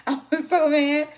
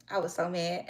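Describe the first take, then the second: First: Much higher and louder, laughing it out; laughing outburst. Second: Said in the usual way. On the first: Real, not acted. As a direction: blurt it loud after a laugh.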